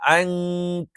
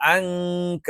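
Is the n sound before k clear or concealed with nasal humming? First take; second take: concealed; concealed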